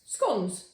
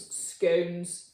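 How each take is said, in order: First: Scones with a short O like gone, skonz. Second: Scones with a long O like cone, skohnz. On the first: Playing with the pronunciation, Scones rhymed with John's. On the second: Playing with the pronunciation, Scones rhymed with stones. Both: Shown as a demonstration. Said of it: "repeats scones in varied pronunciations".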